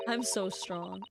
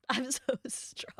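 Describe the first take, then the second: First: Said in the usual way. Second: Slow breathy whisper through a laugh. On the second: Shown as a demonstration. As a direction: whisper it, giggling, slowed down. Repeats the line whispered.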